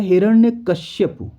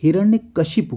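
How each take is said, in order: First: हिरण्यकश्यपु as the common mistake, क-श्य; wrong form. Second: हिरण्यकशिपु with शि, not श्य; correct form. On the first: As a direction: read the wrong हिरण्यकश्यपु, stressed. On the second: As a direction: say हिरण्यकशिपु clearly as क-शि-पु. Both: Shown as a demonstration. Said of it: "हिरण्यकशिपु होता है".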